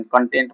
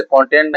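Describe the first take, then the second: First: कंटेंट said as the adjective, stress on the second syllable, con-TENT; कंटेंट with final-syllable stress, the correct reading here; adjective stress conTENT. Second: कंटेंट said as the noun, stress on the first syllable, CON-tent; कंटेंट with first-syllable stress, the way you would not read it here; noun stress CONtent. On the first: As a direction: say कंटेंट with the weight on the end, meaning satisfied. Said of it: "उसे कंटेंट नहीं पढ़ेंगे, कंटेंट पढ़ेंगे".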